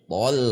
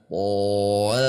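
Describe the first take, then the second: First: The syllable is said at normal speed. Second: The syllable is said slowly and drawn out.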